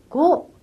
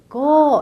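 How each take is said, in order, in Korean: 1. 모음이 짧아요. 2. 모음을 길게 늘여서 발음해요. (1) "오는 고 아니고" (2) "이렇게 좀 길게 발음하시면"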